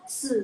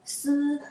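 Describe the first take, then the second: First: It is said with the third, dipping tone. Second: It is said with the first, high level tone. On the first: "nada ketiga" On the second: "nada ke satu"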